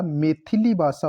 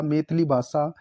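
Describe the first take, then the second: First: Said in the usual way. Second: मैथिली cut to two syllables, "maith-li"; mispronounced मैथिली. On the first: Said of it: "मैथिली भाषा होता है". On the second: Shown as a demonstration. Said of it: "नहीं होता".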